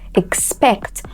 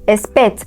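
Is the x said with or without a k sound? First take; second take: with k; without k. First: The x is said as k plus s. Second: The x is said without a k sound. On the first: The speaker calls it right. "a combination of literally a K and an S" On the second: The speaker calls it wrong. "not expect"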